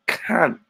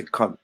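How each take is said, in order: First: "can" as the Cockney form of cunt, open a vowel; Cockney pronunciation. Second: Said in the usual way. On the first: Shown as a demonstration. Host teaching how to swear in Cockney, "can" with open a. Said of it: "You gotta say can". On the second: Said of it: "so you can't just say cunt".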